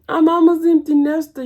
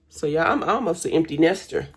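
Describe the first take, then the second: First: Higher and louder, through a laugh; giggling, pitched up. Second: Said in the usual way. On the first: Real, not acted. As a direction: laugh out the punchline.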